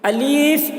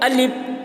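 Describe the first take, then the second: First: The middle vowel is drawn out long. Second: It ends in a p sound without escaping air. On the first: "अलीफ जो खींच कर पढ़ते हैं ये भी गलत है।" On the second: "हवा नहीं निकल रही है, आखिर में पे की आवाज़ निकल रही है। ... तो ये भी गलत है।"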